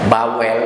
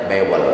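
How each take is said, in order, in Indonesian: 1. Vokal pertama terdengar seperti 'a' di father. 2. Vokal pertama terdengar seperti 'e' di bed.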